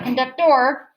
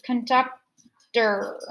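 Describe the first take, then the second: First: The stress is not on the middle syllable. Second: The stress is on the middle syllable. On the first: The speaker calls it wrong. "It's not conductor" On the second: The speaker calls it right. "the middle one is going to be emphasized"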